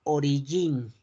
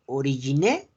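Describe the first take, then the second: First: "origin" ending on the N, French soft g; silent final E. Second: "origine" with the final E sounded; spelling pronunciation. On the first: Teacher showing students the French word, silent E in "origin". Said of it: "pero no se pronuncia la E". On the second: Teacher showing the spelling, final E voiced in "origine". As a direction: read "origine" as written, ending in "-né". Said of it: "Se escribe origine". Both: Shown as a demonstration.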